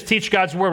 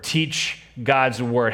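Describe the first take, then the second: First: Said in the usual way. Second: Slow, stressed teach God's word with weight on "God's"; slow emphatic. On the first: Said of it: "We'll do this". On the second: Shown as a demonstration. Pastor to congregation, spelling out the action, slowly.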